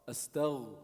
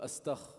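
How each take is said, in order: First: The throat consonant is a voiced gh sound. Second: The throat consonant is a voiceless kh sound. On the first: The speaker calls it right. "It's with a Ghayn, not a Kha" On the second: The speaker calls it wrong. "instead of"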